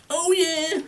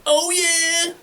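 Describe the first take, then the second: First: High rock singer wail; rocker wail. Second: High, loud rocker wail. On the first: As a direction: belt it like a metal frontman. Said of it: "listening to a lot of Gwar". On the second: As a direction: wail it like a rock frontman. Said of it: "You're like". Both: Shown as a demonstration.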